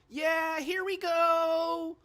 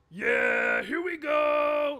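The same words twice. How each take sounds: First: The voice is high and childlike. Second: The voice is deep and gravelly. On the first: "He sounded like a little kid" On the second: "kind of a gravelly sound like that"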